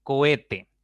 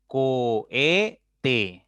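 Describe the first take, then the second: First: Said in the usual way. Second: "Cohete" drawn out as Co - he - te; teacher slowly sounding out "Cohete" beat by beat; syllable by syllable. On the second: Shown as a demonstration. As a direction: split "Cohete" into three long, separate syllables. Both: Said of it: "Tiene tres sílabas".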